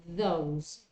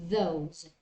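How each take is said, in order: The two takes are said the same way.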